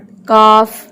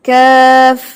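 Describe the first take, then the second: First: It is said with a straight Urdu-Punjabi vowel. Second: It is said with a slanted Arabic vowel. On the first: The speaker calls it wrong. "हम उर्दू पंजाबी एक्सेंट वाले लोग ... इसको काफ पढ़ते हैं" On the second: The speaker calls it right. "आप इसको कैसे पढ़ेंगे"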